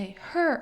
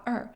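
First: The word begins with a clear h sound. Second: The word begins without any h sound. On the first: "тобто не her" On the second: "часто вони викидають звук х, тобто не her, а er"

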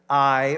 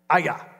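First: The name is said as one syllable, eye. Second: The name is said as two syllables, ah-yah. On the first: The speaker calls it wrong. "for years I pronounced it I" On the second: The speaker calls it right. "actually the way you pronounce it is Aya"

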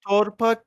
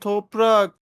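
First: The r sound comes before the p. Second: The r sound comes after the p. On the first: The speaker calls it wrong. "torpak değil" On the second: The speaker calls it right.

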